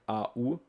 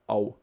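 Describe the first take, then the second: First: The two vowels are said as separate sounds. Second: The two vowels merge into one gliding sound. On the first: The speaker calls it wrong. "it's also not like A U" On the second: The speaker calls it right. "but it's Au"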